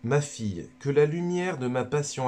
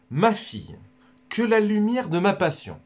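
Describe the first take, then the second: First: Lightly voiced Jesus addressing a daughter; a hint of a solemn Jesus, barely shifted; Jesus speaking. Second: Hammed-up Jesus, much higher and louder; Jesus speaking. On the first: Jesus speaks to Luisa, only lightly voiced. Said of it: "c'est Jésus qui parle à Luisa Picaretta". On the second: Jesus speaks to Luisa, proclaimed much higher and louder. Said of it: "je vais vous le redire".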